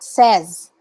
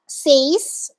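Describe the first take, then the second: First: The vowel sounds like the one in 'set'. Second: The vowel sounds like the one in 'say'. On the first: The speaker calls it right. "S E Z. Okay, so you say it like that" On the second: The speaker calls it wrong. "it's not says"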